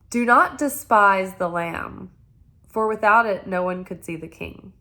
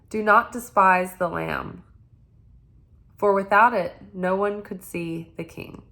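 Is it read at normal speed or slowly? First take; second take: normal; slowly. First: It is read at a normal pace. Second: It is read more slowly.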